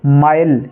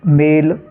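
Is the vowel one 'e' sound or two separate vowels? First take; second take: two vowels; one e. First: The vowel is split into 'a' plus 'i'. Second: The vowel is one plain 'e' sound. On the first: The speaker calls it wrong. "ये हो जाएगा माइल" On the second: The speaker calls it right. "आपको इसको ए से उच्चारित करना है"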